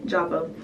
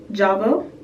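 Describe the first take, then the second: First: "Java" lower and softer, as a statement; confirming. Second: "Java" said as a question. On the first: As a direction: settle "Java" quietly as the answer. Confirms the shade name to herself. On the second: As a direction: say "Java" unsure, checking the name. Checks the shade name, unsure. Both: Real, not acted.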